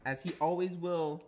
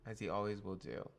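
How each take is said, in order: First: Loud, high grand announcement; mock proclamation. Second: Said in the usual way. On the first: Streamer reading card flavour to chat, hammed-up and loud. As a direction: proclaim it like a herald.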